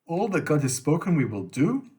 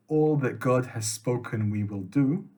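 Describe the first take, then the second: First: "we will do" swung up sharply into a question; incredulous question. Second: Statement reading of "we will do", no question; submissive acceptance. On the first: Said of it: "adds a question mark at the end". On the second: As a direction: accept it plainly on "we will do", like a full stop. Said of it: "a submissive act of acceptance". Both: Shown as a demonstration.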